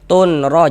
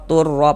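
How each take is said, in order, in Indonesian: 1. Bunyi n yang jelas terdengar sebelum r. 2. Bunyi n melebur sepenuhnya ke dalam r. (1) "Jangan dibaca tun" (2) "Dia langsung masuk melebur ke huruf ro"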